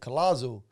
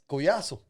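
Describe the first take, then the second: First: The name is said with English-style sounds. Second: The name is said with Spanish-style sounds. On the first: This is how English speakers say the name. The speaker calls it wrong. "You say it in English, they pronounce it Colazo" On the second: This is how the family says the name. The speaker calls it right. "But yeah, it's Collazo"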